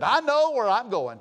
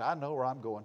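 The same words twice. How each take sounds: First: Loud, high, drawn-out declaration; emphatic retold exclamation. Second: Said in the usual way. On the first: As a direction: imitate her declaring it loud and slow.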